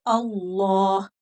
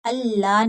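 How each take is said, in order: First: अल्लाह slow, with a dark "llaw"; heavy lam. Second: अल्लाह with a light, open "llaa"; thin lam. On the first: Teacher corrects for students, thick slow lam in अल्लाह. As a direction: draw out अल्लाह, rounded and full. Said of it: "मोटा होगा". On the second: Teacher shows the wrong reading, thin lam in अल्लाह. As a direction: say अल्लाह quickly, l thin and unrounded. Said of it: "नहीं पढ़ेंगे". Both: Shown as a demonstration.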